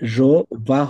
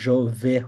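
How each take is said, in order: First: The second word ends in an 'ah' vowel. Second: The second word ends in an 'eh' vowel. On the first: The speaker calls it wrong. "জো বা হবে না" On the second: The speaker calls it right. "এটা জো ভে হবে"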